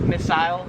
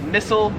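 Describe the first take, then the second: First: It is said with an Australian accent. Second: It is said with an American accent.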